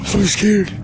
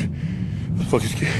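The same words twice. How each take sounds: First: Higher, pushed-out fear; nervous raised repeat; scared outburst. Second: Slow breathy whisper, voice almost gone; hushed real fear, slow; scared whisper. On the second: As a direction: confess it under your breath. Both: Real, not acted.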